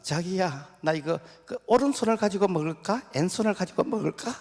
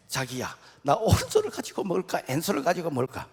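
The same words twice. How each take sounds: First: High, loud, cutesy bride voice; coy bride. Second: Mock bride copying the question; copycat bride. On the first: Acted. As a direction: ask sweetly like a doting new bride. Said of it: "그 신부가". (신혼 신부의 높고 애교 섞인 목소리) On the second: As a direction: ask it parroting the Seoul bride. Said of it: "따라서 했어". (서울 신부를 흉내 내는 경상도 신부)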